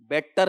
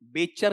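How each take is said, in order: First: The middle consonant sounds like a hard t. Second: The middle consonant sounds like a full ch. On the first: "बेटर नहीं" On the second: "बेचर नहीं"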